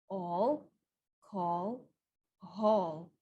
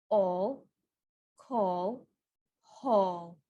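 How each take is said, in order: The two takes are said the same way.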